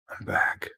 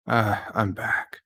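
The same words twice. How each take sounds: First: Breathy whisper, barely voiced. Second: Said in the usual way. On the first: Real, not acted. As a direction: whisper it to yourself. Quiet repeat after own line.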